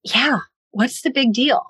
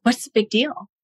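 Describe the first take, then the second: First: Mild mock echo of Yeah, what's the big deal, rising; wife echoing her husband's line with mild sarcasm; sarcastic echo. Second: Lightly voiced husband brushing it off; husband shrugging off her upset, mildly dismissive. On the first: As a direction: throw his words back at him lightly. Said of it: "And I'm like". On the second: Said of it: "he's like".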